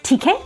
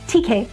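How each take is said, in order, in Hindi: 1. यह प्रश्न वाले लहजे में कहा गया है। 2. यह कथन वाले लहजे में कहा गया है। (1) "if you use it as an interrogation, then you say theek hai, is it okay?" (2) "which means it's fine, it's okay"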